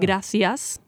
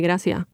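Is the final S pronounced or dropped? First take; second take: pronounced; dropped. First: It has a Madrid accent, final S pronounced. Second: It has an Andalusian accent, final S dropped.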